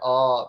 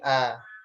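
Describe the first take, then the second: First: The vowel is a rounded, backed 'o' sound. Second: The vowel is a thin, open 'a' sound. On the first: The speaker calls it wrong. "jangan oh" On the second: The speaker calls it right. "tapi a"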